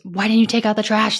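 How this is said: It is said in an angry tone.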